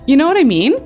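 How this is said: It is said as a question.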